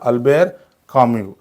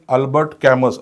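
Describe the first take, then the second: First: The surname ends with a vowel sound. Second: The surname ends with an s sound. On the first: The speaker calls it right. "तो काय आहे करेक्ट उच्चार?" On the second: The speaker calls it wrong. "असं बऱ्याचदा मुलं म्हणतात"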